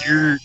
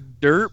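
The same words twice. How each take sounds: First: The word is said with an imitated, unusual pronunciation. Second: The word is said with its normal pronunciation. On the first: "but he says dirt" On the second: "even though the word is dirt"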